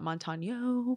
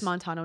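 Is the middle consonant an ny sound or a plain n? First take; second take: ny sound; plain n. First: The middle consonant is an ny sound. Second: The middle consonant is a plain n. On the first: The name has a tilde over the n. The speaker calls it wrong. "not Montano, but I don't see the little over the end" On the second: The name has no tilde over the n. The speaker calls it right. "I'm assuming it's Montano"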